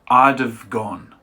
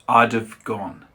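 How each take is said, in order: The two takes are said the same way.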